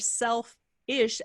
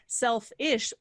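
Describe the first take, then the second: First: The word is split with a break after self. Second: The word is said smoothly as one unit. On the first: It means being like one's own self. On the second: It means caring only about oneself.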